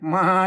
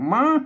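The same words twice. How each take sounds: First: The tone stays level in the middle. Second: The tone goes up slightly. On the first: This is how one dialect says it. "มาเนี่ยมันสามัญ" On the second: This is how another dialect says it. "มันขึ้นไปหน่อย"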